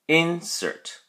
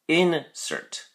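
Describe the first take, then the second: No difference in how they are said.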